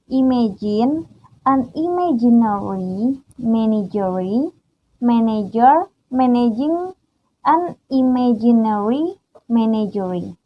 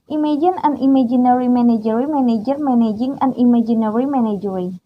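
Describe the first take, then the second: First: It is said slowly. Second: It is said fast.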